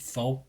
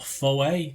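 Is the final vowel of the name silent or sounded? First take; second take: silent; sounded. First: The final E is silent, like "foe". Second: The final E is sounded as a vowel. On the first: "most people pronounced it Foe" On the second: "with that pronunciation over the E"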